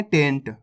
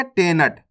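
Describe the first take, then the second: First: टेंट with a quick n: "tent"; one low syllable टेंट, n straight into t; quick half न. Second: टेनट with a whole "na": te-nat; full न. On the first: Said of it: "ना का उच्चारण तेजी के साथ". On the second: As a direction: say टेनट in two syllables, te-NAT. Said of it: "ना पूरा लगे हुआ है". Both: Shown as a demonstration.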